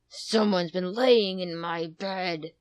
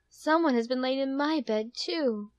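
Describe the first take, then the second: First: It is growled in a big, deep voice. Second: It is said in a soft motherly voice.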